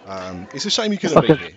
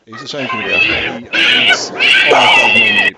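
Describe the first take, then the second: First: Said in the usual way. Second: Very high, loud mock Liverpool voice; hammed-up Liverpool accent, much higher and louder; Scouse impression. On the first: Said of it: "his voice is unbelievable". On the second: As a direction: squeal it out like an over-the-top Scouser. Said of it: "your stereotypical, uh, Scouser".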